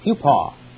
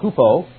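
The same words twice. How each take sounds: First: The o is like the coffee vowel. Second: The o is not like the coffee vowel. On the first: The speaker calls it right. "It's pronounced kind of like the O in coffee" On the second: The speaker calls it wrong. "not hupo"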